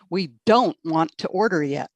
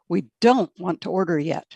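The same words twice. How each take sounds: First: It is said with angry-sounding stress. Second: It is said with calm, neutral stress. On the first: The speaker seems annoyed. The speaker calls it wrong. "that sounds very angry in English" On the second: The speaker is simply not ready. The speaker calls it right. "Instead of"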